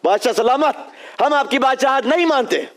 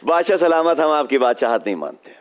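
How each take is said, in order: First: An emotional villain says it angrily. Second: A relaxed villain says it calmly.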